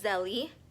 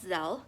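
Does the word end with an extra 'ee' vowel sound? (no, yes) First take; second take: yes; no. First: The word ends with an extra 'ee' vowel. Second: The word ends on the 'l' with no vowel. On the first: The speaker calls it wrong. "It is not Zelly, which to me, I think it sounds better" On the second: The speaker calls it right. "but it's called Zelle"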